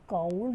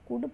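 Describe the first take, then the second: First: The L sound is pronounced. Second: The L sound is silent. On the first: This is how it is spelled. The speaker calls it wrong. "काउल्ड लिखा जाता है" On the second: This is how it is read aloud. The speaker calls it right. "कुड पढ़ा जाता है, एल silent होता है"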